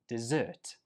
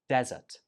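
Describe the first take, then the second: First: The stress is on the second syllable. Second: The stress is on the first syllable. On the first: It names a sweet food after a meal. "the stress goes on the second syllable" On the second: It names a dry sandy place. "the stress goes on the first syllable"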